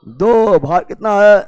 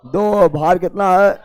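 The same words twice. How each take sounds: The two takes are said the same way.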